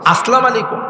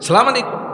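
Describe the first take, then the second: First: The greeting is said with its opening syllable. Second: The opening syllable of the greeting is dropped. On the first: The speaker calls it right. "শুদ্ধ করে দিও" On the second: The speaker calls it wrong. "শুদ্ধ করে দিও"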